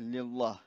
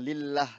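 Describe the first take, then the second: First: The L in Allah sounds thick. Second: The L in Allah sounds thin. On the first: The speaker calls it wrong. "tidak boleh" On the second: The speaker calls it right. "kalau i bacanya tarkik jelas eh, tipis ya"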